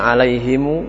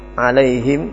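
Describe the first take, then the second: First: The word ends with an added u vowel. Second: The word ends on a closed m sound. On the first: "Ada yang alaihimu" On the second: "Ada yang dibaca dengan alaihim"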